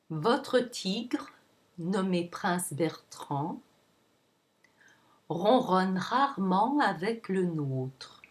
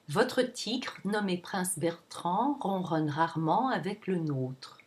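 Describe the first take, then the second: First: The sentence is said at a slower pace. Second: The sentence is said at a faster pace. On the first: "And again" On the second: "And a little faster"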